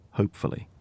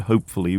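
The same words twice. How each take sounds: First: Whispered, doubtful aside. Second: Said in the usual way. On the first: A narrator's reading. Narrator casting doubt on the plan, whispered. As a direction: breathe it under the breath, unconvinced.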